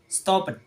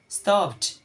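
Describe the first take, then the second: First: The ending is an extra syllable. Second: The ending is a plain t sound. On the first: "in the writing it's, it's like stop it" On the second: "in the sound of pronunciation, that the d is changed of t"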